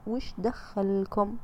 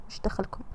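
First: Dismissive retort. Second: Soft whispered none-of-your-business; whispered retort. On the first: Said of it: "قولي لهم كذا". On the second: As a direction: whisper وش دخلكم؟ under the breath, unvoiced. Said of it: "خلاص، قولي لهم كذا". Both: Shown as a demonstration.

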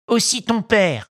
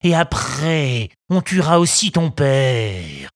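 First: High, gleeful sidekick echo; echoing henchman. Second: Slow, heavy threatening robber; menacing bandit. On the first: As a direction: repeat it like a nasty parrot. Second bandit echoes. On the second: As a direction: lean on each word to scare. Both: Acted.

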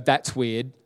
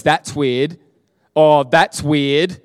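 First: Said in the usual way. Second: Louder, slower amazed repeat. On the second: Retold or imitated. Cashier realizing her back pain is gone, louder in amazement. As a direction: stretch it out in wonder, louder.

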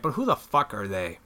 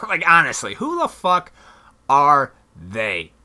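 First: Said in the usual way. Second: Mocking laugh at the "they" in "timing's everything"; laughing disbelief. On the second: Real, not acted. Repeats the question, laughing.

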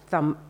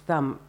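The two takes are said the same way.

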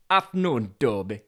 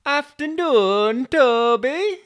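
First: Yorkshire delivery driver. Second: High, loud, drawn-out greeting; delivery driver. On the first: Driver greeting wedged Toby, Yorkshire accent. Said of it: "it'll be another Yorkshire". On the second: Driver greeting Toby on arrival, high loud put-on voice. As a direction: call it out high, slow and loud. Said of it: "the delivery driver arrived". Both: Acted.

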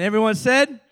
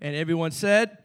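First: Louder call for amen. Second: Said in the usual way. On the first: Acted. Repeats call louder for response.

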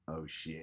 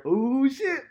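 First: Low, soft dawning oh shit; quiet realisation. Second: Much higher, loud shocked cry; startled exclamation. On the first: Ed realising his friend is right, hushed. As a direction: let it sink in quietly. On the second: Painters startled at the huge wall, loud shocked cry. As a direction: yelp it like you've been caught. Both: Retold or imitated.

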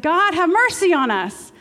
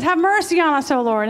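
First: Louder, higher, slow plea; blind men crying out. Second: Higher, louder plea for mercy; blind man crying out. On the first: Blind men calling to God, loud slow plea. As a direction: call out for mercy from the roadside. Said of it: "They said". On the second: Blind man begging Jesus, loud and high. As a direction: cry out to the Lord. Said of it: "the blind man says". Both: Acted.

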